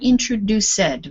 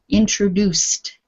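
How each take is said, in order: First: The ending is said as a full 'id' syllable. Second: The ending is said as a short 't' sound. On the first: The speaker calls it wrong. "not introduced" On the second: The speaker calls it right. "The ed becomes T"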